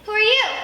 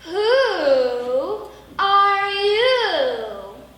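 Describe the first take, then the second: First: It is said in a plain, normal way. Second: It is said in a dramatic, exaggerated way.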